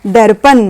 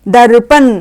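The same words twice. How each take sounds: First: Said in the usual way. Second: दर्पण stated as the answer; confirming repeat. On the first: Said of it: "ऐसे शब्द जैसे द प न". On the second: Shown as a demonstration. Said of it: "ये होगा दर्पण".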